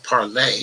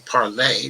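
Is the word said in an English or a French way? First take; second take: French; French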